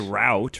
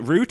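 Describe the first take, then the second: First: It is said in an American way. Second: It is said in a Canadian way.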